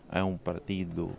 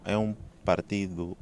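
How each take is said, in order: Both takes have the same delivery.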